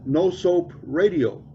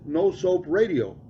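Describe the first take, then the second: First: Drawn out slowly, each word weighted; slow it right down on 'No soap radio'; the deadpan punchline, slowly. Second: Slow, drawn out deadpan; the punchline, again slow. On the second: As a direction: stretch 'No soap radio' slowly. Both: Retold or imitated. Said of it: "nice and slow".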